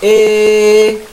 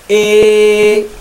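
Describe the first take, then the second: First: The vowel leans strongly from a toward i. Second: The vowel leans strongly from a toward i.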